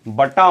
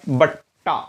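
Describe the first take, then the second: First: The t sound is short and single. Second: The t sound is held long and doubled. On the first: The speaker calls it wrong. "बटा मत" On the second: The speaker calls it right.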